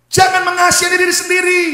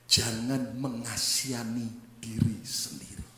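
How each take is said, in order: First: High, very loud preacher's shout; full-force pulpit command; shouted exhortation. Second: Slow, low, near-whisper; soft, drawn-out solemn hush; hushed warning. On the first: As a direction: hammer it home to the whole congregation. Same point repeated as a shout. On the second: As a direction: say it slowly under your breath, weighing each word. Point said hushed before shouting it. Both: Shown as a demonstration.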